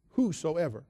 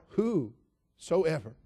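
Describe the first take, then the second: First: Said in the usual way. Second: Whosoever drawn out very slow and even; savoring the word. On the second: Shown as a demonstration. Preacher savoring the word Whosoever, drawn out very slowly. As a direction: linger on every syllable of Whosoever. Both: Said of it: "Don't you love that word?".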